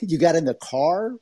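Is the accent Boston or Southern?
Southern. It is said in a Southern accent. "I got a little Southern accent"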